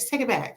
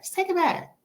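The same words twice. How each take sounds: First: Said in the usual way. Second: Just take it back said much higher in a put-on voice; high-pitched repeat. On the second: Shown as a demonstration.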